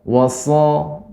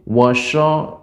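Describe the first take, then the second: First: The consonant is a heavy, hissing s sound. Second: The consonant is a soft sh sound. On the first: The speaker calls it right. "Nah demikian" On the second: The speaker calls it wrong. "Adapun shin washo sho enggak"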